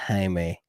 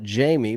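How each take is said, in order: First: It is said the Spanish way, like Hi-meh. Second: It is said like the English name Jamie. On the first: The speaker knows the brand. The speaker calls it right. "you got to say it like that" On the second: The speaker is a beginner who doesn't know better. The speaker calls it wrong. "You would call it Jamie because you're a rookie"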